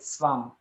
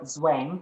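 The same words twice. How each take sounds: First: The word begins with a harsh ts sound. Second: The word begins with a soft z sound. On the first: This is how a German speaker says it. "and I would say zwang" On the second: This is how an English speaker says it. "You you would say zw- zwang"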